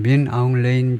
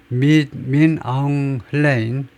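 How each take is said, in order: First: The last name begins without an h sound. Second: The last name begins with an h sound.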